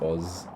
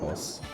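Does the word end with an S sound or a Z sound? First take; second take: Z sound; S sound. First: The word ends with a buzzing Z sound. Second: The word ends with a hissing S sound. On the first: It refers to Australian. "I guess it sounds more like a Z" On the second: It refers to Austrian. "Whereas Austrian, I imagine, would be like Os"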